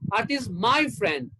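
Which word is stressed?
my. The word my carries the stress. She is the speaker's friend, not the listener's. "That means she's mine, not yours"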